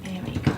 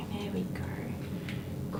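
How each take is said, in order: First: Said in the usual way. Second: Slow soothing whisper to the dog. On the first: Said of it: "there we go (whispered take)". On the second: Real, not acted. Groomer whispering slowly to a nervous dog. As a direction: breathe the words, barely voiced, slowly.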